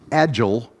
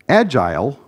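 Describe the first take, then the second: First: It uses the American pronunciation of the word. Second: It uses the British pronunciation of the word. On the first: It refers to being flexible. "the American pronunciation" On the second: It refers to the methodologies. "using the British and Canadian and typical pronunciation here"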